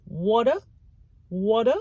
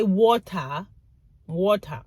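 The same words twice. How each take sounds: First: "water" with a D for the T, like "wadder"; D pronunciation. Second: "water" with a crisp T, like "waw-tah"; T pronunciation. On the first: Speaker showing the American way, "water" with a D. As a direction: say "water" as "wadder", tune rising. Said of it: "So there's a D". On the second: Speaker showing how not to say it, "water" with a hard T. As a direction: say "water" with a clear T in the middle. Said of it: "You don't say". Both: Shown as a demonstration.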